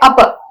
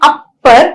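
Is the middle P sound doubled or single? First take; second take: single; doubled. First: The middle P sound is single and short. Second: The middle P sound is doubled, held long. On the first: The speaker calls it right. "we say upper" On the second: The speaker calls it wrong. "we don't say upper"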